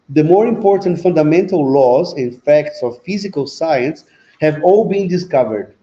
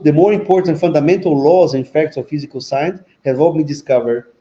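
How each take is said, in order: First: It is read at a slower pace. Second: It is read at a faster pace.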